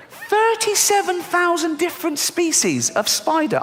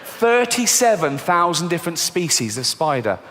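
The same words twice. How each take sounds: First: Slow, very high incredulous squeal; high-pitched disbelief. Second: Said in the usual way. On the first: Acted. Comedian appalled at spider numbers, slow squeaky disbelief. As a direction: repeat it way up high, drawn out, aghast.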